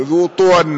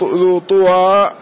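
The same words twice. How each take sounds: First: "طوى" said ṭuwan, ending in n; tanween with damma. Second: "طوى" said ṭuwaa, slow open long ending; no tanween, damma. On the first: Teacher showing the nunated form, "طوى" as ṭuwan. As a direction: say "طوى" with u, closing on a nasal -an. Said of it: "مقصور منون". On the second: Teacher showing the form without tanween, slow "طوى" as ṭuwaa. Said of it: "لا ينون". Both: Shown as a demonstration.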